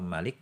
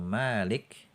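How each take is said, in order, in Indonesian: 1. Vokal pertama dibaca pendek. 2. Vokal pertama dibaca panjang. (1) "itu artinya raja" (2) "mimnya panjang, dibaca panjang artinya pemilik atau penguasa"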